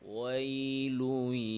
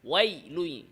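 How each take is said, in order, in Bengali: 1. ya ধ্বনিটি সফট ও সহজভাবে বলা হয়। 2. ya ধ্বনিটি শক্ত ও টানটান করে বলা হয়। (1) "সহজ, সফট।" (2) "আমি যদি শক্ত করি"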